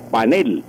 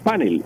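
First: It is pronounced the Spanish way. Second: It is pronounced the English way. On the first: "pero en español es panel" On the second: "En inglés decimos panel"

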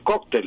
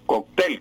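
First: The stress is on the first syllable. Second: The stress is on the last syllable. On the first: This is the usual form in Spain. "sobre todo en España, es muy común el cóctel" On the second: This is the usual form in Colombia. "cóctel con acento aguda"

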